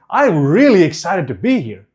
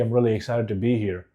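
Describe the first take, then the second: First: It is said with lively, excited emotion. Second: It is said flatly, without excitement. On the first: The speaker seems to believe it. The speaker calls it right. "same words, different emotion" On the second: The speaker does not seem to believe it. The speaker calls it wrong. "does it sound like I'm excited?"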